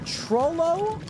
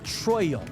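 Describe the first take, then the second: First: The middle consonant is a clear L sound. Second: The middle consonant is a Y sound. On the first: "is it double L" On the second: "or is it a Y sound? Like Troyo"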